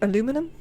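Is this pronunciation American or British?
American. It is said the American way, with four syllables. "I've decided against aluminum"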